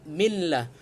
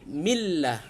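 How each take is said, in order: The two takes are said the same way.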